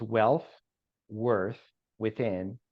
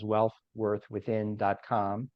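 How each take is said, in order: First: Spaced out word by word; very slowly. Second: Said in the usual way. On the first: Shown as a demonstration. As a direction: say each word separately, with clear pauses. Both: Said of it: "make sure to say that very slowly".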